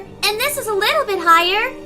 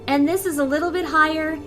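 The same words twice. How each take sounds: First: The voice is pitched far above normal. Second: The voice is pitched slightly above normal.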